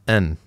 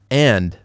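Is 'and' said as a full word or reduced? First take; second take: reduced; full. First: It is reduced to a short 'n' sound. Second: It is said as the full word 'and'.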